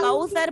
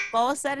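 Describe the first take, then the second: First: कौसर said with a full au diphthong; right pronunciation of kausar; correct Kausar. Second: कौसर said as ko-sar, with a flat o; wrong pronunciation shown to the student; wrong Kausar. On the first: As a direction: say कौसर as kau-sar, open au. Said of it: "कौसर पढ़ना है". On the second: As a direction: mimic the mistake, कौसर as kosar. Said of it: "कौसर नहीं पढ़ना". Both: Shown as a demonstration.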